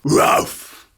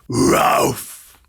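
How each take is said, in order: First: The bark is at a normal speed. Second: The bark is drawn out more slowly. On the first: "Bark like a dog" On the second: "Now slow it down a little bit"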